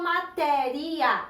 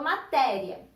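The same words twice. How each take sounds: First: The ending 'ia' is split into two syllables. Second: The ending 'ia' is joined into one syllable. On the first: The speaker calls it wrong. "Eu não falo matéria" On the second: The speaker calls it right. "eu falo matéria"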